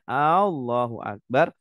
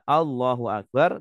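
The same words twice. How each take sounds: First: The first A sound is long. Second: The first A sound is short. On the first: It asks whether God is the greatest. The speaker calls it wrong. "kalau sampai kita memanjangkan A" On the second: God is the greatest. The speaker calls it right. "harusnya Allahu Akbar"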